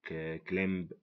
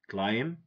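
First: A B sound is heard at the end. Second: No B sound is heard at the end. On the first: The speaker calls it wrong. "This is wrong" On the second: The speaker calls it right. "If we know the silent letters, we're gonna say"

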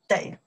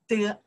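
First: The word is 'dei' with a low dipping tone. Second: The word is a short light 'de'. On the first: It comes before a verb and means must. "this number three means the third tones" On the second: It follows a verb and links it to what comes next. "After verb, we pronounce the de"

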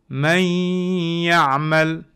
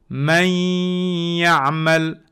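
Both takes have the same delivery.

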